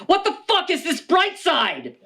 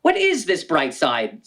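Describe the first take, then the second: First: High, laughing disbelief; incredulous heckler. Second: Said in the usual way. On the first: Acted. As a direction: blurt it like an outraged audience member. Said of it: "others may ask". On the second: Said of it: "some may ask".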